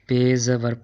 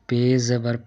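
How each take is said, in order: The two takes are said the same way.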